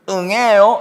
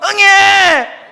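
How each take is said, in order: First: It is said softly and cutely. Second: It is wailed loudly at full voice.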